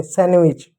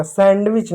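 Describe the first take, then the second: First: सैंडविच as san-wich; silent D. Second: सैंडविच with the d sounded; D pronounced. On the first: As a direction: drop the middle d of सैंडविच. (डी silent रखकर "सैंडविच") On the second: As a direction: say सैंडविच keeping its d. (डी बोलकर "सैंडविच") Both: Shown as a demonstration. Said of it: "सैंडविच नहीं".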